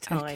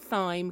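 First: The word starts with a plain 't' sound. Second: The word starts with a 'th' sound. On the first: The speaker calls it right. "but apparently it's thyme" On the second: The speaker calls it wrong. "apparently I say this wrong. I said"

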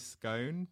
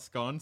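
First: The vowel rhymes with cone, a long o. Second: The vowel rhymes with gone, a short o. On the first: The speaker calls it right. "I would always say scone" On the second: The speaker calls it wrong. "not scone"

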